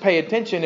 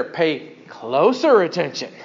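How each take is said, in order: First: Said in the usual way. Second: Slow, with "closer" drawn out; stress on closer. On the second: Shown as a demonstration. Preacher explaining the Greek adverb, "closer" stretched for emphasis. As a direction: lean hard and long on "closer". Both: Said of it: "adverb adds the emphasis".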